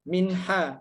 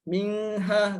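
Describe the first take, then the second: First: The n is clear, with no nasal hum. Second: The n is drawn out with a nasal hum. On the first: The speaker calls it right. "Jadi dibacanya harus jelas, jangan dengung" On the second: The speaker calls it wrong. "Minha kan salah. ... itu enggak jelas"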